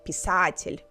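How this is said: One vowel is stressed strongly, Russian-style. The speaker calls it right. "Russians would stress a specific vowel"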